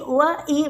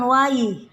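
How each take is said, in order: First: The two vowels are kept clearly separate. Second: The two vowels run together into one glide. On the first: The speaker calls it right. "perpindahan wa ke i harus jelas" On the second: The speaker calls it wrong. "bukan wai"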